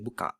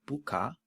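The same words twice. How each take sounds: First: The word ends with a stop closure. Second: The word ends on an open vowel. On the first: "you would add a K at the end" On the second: "instead of saying"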